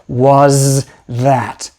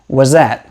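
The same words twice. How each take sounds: First: Both the z and th sounds are clear. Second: The z sound continues in place of th. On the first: "Pronouncing both of those sounds clearly takes a lot of work" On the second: "We just continue the Z sound"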